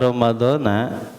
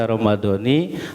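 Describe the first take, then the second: First: The word ends with an 'a' vowel. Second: The word ends with an 'i' vowel. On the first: The year is cut off, so it could be any year. The speaker calls it wrong. "Ramadana itu berarti hadis sanatina terputus dari Ramadan itu" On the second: It refers to this year's Ramadan. The speaker calls it right. "kalau dibaca Ramadhani hadis sanati semuanya J R berarti nah tahun ini"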